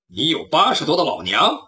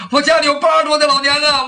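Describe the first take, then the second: First: Low voice, rising on 八 in disbelief; skeptical hero. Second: High, loud wail stretching 家; whining thief. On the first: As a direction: question the lie coolly. Hero doubts the thief's lie. (侠客低声反问“你有八十多的老娘？”) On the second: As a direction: plead an old mother to be spared. Thief pleads with a false story. (小贼高声哭诉“我家里有八十多的老娘啊”) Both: Acted.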